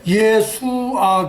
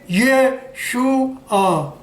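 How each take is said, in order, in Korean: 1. 가운데 자음은 그냥 's' 소리입니다. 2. 가운데 자음은 'sh' 소리입니다. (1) "어떤 사람은 또 예수아 그래" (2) "설탕 발음 나올 때 슈가 그러죠"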